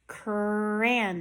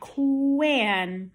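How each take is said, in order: First: The word is said with a clear R sound. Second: The R is replaced by a W sound. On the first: The speaker calls it right. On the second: The speaker calls it wrong.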